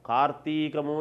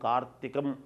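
First: The word ends with a drawn-out 'mu' syllable. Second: The word ends with a short 'm' sound. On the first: The speaker calls it wrong. "దీర్ఘం అనకూడదు" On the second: The speaker calls it right. "కార్తీకం అనాలి"

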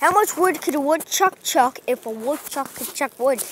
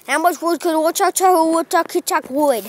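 First: It is said at a normal pace. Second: It is said at a fast pace.

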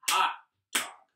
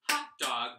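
First: The words are said slowly. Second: The words are said fast.

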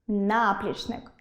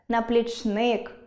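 First: The stress is on the first syllable. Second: The stress is on the third syllable.

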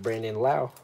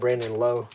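First: The surname rhymes with 'how'. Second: The surname rhymes with 'low'. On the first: This is how the name is really said. The speaker calls it right. "but his name is Brandon Lau" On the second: This is how some people wrongly say the name. The speaker calls it wrong. "some people call him Brandon Lowe"

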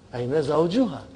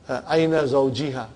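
First: The vowel after 'zawj' is 'u'. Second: The vowel after 'zawj' is 'i'. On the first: The noun is in the nominative case. The speaker calls it right. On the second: The noun is in the genitive case. The speaker calls it wrong.

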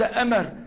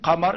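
First: It begins with a glottal stop. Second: It begins with a deep q sound. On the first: The speaker calls it wrong. "وليس آفا" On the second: The speaker calls it right. "نطق القاف قافا"

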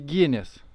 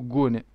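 First: The name is said like Ginis. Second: The name is said like Gune. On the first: The speaker calls it right. "dar se citește Guinness" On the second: The speaker calls it wrong. "nu Gune"

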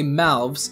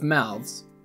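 First: The word ends with a v sound before s. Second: The word ends with a th sound before s. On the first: The speaker calls it right. "It seems easier to say mouths" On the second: The speaker calls it wrong. "instead of mouths"

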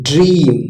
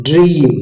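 No difference in how they are said.

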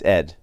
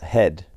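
First: The name begins with a plain vowel sound. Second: The name begins with an added h sound. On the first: "but it's Ed" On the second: "if your name starts with an E, they say an H"

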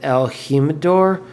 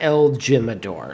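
First: The name is said with a Spanish pronunciation. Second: The name is said with an English pronunciation. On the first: The speaker calls it right. "I believe that's the correct Spanish pronunciation" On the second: The speaker calls it wrong. "I know it's not El Jimador"

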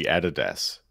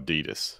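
First: The brand name is said the older Australian way. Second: The brand name is said the American way. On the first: This is how people locally used to say it. "it used to be Adidas" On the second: This is the newer, Americanized way people say it. "we got Americanized and it's now Adidas"

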